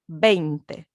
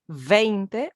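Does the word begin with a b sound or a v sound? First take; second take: b sound; v sound. First: The word begins with a b sound. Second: The word begins with a v sound. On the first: The speaker calls it right. "le V se prononce comme un B. on va dire veinte" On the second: The speaker calls it wrong. "on ne va pas dire veinte"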